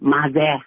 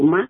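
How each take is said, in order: First: The word ends with a z sound. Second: The word ends with a d sound. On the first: The speaker calls it wrong. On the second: The speaker calls it right.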